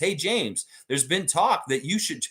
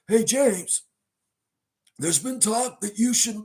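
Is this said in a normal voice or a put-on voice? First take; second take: normal; put-on. First: It is said in the speaker's normal voice. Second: It is said in an imitated character voice.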